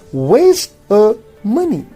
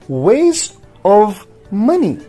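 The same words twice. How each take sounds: First: The v sound in of is dropped. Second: The v sound in of is pronounced. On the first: "in a rapid speech" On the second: "when we do not speak rapidly"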